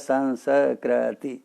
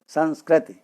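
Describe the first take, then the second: First: The word is said in four syllable units. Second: The word is said in three syllable units. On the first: The speaker calls it wrong. "अब उसको मैंने चार वर्णों में पढ़ दिया" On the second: The speaker calls it right. "संस्कृति को भी तीन वर्ण है"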